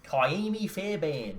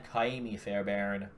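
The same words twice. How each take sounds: First: High, very slow Australian Kaimi Fairbairn; exaggerated Australian vowels, r's dropped in Fairbairn; Australian accent. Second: Name said with American r's in Fairbairn; drawn-out Kaimi Fairbairn in an American accent. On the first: Showing the co-host how disgusting it sounds in an Australian accent. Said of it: "try to say that with an Australian accent". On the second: Reading off a drafted kicker's name, in an American accent. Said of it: "say that one with an American accent". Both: Shown as a demonstration.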